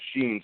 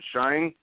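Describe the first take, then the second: First: The vowel sounds like 'ee', as in 'seen'. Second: The vowel sounds like 'eye', as in 'line'. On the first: The speaker calls it wrong. "I've always uh, pronounced it Sheen" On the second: The speaker calls it right. "So Shine"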